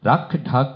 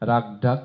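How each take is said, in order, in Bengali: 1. ব্যঞ্জনগুলো শ্বাসের ঝলকসহ মহাপ্রাণ উচ্চারিত হয়। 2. ব্যঞ্জনগুলো শ্বাসের ঝলক ছাড়া অল্পপ্রাণ উচ্চারিত হয়। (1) "ক এবং খয়ের পার্থক্য সহ" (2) "অনেকের এটা হবে রাগ ডাক, ... সব ক হয়ে যাবে"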